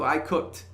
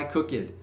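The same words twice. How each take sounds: First: Cooked is said as one syllable. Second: Cooked is said as two syllables. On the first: The speaker calls it right. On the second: The speaker calls it wrong.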